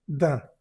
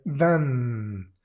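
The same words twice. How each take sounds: First: Da said nasal, no N; da, nasal vowel only; nasal d'un, no N. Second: Dan with the N spoken out; dan, N clearly said; wrong dan with the N; wrong pronunciation. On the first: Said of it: "simplemente se dice da". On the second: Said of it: "y no es dan". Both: Shown as a demonstration.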